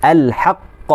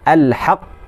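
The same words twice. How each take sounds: First: The final q is held briefly before release. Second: The final q is held briefly before release.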